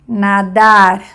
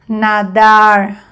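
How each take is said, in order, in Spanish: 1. La r final suena como una r española. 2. La r final suena como una r inglesa. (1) "semejante de español" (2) "Primer ejemplo en inglés"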